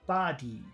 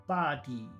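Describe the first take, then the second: No difference in how they are said.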